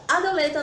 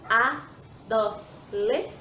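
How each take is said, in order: First: Said in the usual way. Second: "adoleta" slowly split into a-do-le-ta; syllable by syllable. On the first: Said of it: "em vez da palavra adoleta". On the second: Shown as a demonstration. Teacher shows children how words break up, saying "adoleta" in separated syllables. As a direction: say "adoleta" with a pause after every syllable. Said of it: "Nós falamos a palavra pausadamente, em sílabas".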